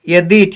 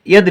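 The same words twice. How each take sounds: First: The final vowel is held long. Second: The final vowel is kept short. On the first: The speaker calls it wrong. "यदि ठीक नहीं होता है" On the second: The speaker calls it right. "यदि ठीक होता है"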